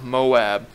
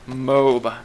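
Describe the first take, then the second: First: The second vowel sounds like the vowel in 'cat'. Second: The second vowel sounds like the vowel in 'ball'. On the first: The speaker calls it wrong. "not Moab" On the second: The speaker calls it right. "I would consider it being uh, pronounced Moab"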